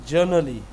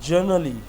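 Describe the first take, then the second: The two takes are said the same way.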